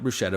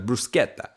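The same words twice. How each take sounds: First: The word is pronounced the English way. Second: The word is pronounced the Italian way. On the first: The speaker calls it wrong. "not bruschetta" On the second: The speaker calls it right. "that's how you say it"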